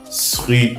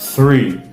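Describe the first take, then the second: First: The word begins with an s sound. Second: The word begins with a th sound. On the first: The speaker calls it wrong. "Ce n'est pas sri" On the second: The speaker calls it right. "c'est bien th"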